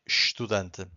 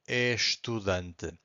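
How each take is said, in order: First: The first syllable is reduced to a sh sound. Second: The first syllable is fully pronounced with its vowel. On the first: This is how it is said in Portugal. "in European Portuguese we swallow syllables all the time. So here we just say estudante" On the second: This is how it is said in Brazil. "if you're gonna say estudante, it's fine. In fact, Brazilian people would say it that way"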